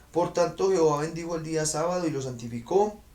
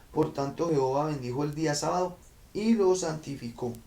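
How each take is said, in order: Both takes have the same delivery.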